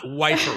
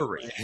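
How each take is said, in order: First: The first syllable has a long 'i', like 'wife'. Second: The first syllable has a short 'i', like 'whiff'. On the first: The speaker calls it wrong. "not wifery" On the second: The speaker calls it right.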